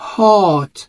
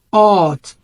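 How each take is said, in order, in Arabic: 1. الصوت يشبه 'ah' مفتوح. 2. الصوت يشبه 'ah' مفتوح.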